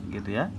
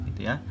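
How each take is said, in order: Both takes have the same delivery.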